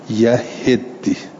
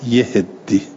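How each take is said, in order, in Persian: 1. هجای اول a دارد، هجای دوم i. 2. هم هجای اول و هم هجای دوم مصوت i دارند. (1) "به فتح الیا و کسر الها و تشدید دال" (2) "به کسر الیاء و الهاء و تشدید"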